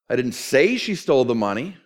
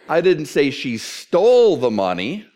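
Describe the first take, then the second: First: The stress falls on the word say. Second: The stress falls on the word stole. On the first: It is believed but was never said aloud. "I believe it, but you can't quote me on that" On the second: She did something else with the money. "What did she do? She borrowed it"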